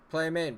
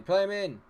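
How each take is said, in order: First: Said in the usual way. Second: Pleading shout to pass; louder second plea to play him in; louder urging. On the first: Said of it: "repeated urging". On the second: Real, not acted. Gamer yelling at his striker to pass. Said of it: "repeated urging, louder".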